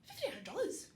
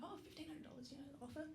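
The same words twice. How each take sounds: First: Loud, high, incredulous question; astonished retelling. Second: Softer, higher, casual aside; offhand mention. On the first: Mother-in-law hearing the offer, astonished. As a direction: imitate an amazed relative, voice jumping right up. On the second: Telling mother-in-law about the offer, offhand. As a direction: slip it in softly as if trivial. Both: Retold or imitated.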